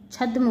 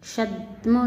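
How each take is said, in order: First: Said in the usual way. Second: क्षद्म as "kshadma"; mispronounced. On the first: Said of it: "होता है". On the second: Shown as a demonstration. Teacher showing students an error, क्षद्म with wrong ksh. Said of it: "नहीं होता".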